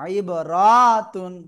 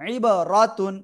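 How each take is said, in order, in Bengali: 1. r-এর পরের স্বরটি টেনে উচ্চারিত হয়। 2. r-এর পরের স্বরটি হ্রস্ব।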